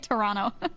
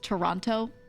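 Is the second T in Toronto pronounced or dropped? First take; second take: dropped; pronounced. First: The second T is dropped. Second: The second T is clearly pronounced. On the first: "if I don't think about it" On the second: "I was trying hard to pronounce the T"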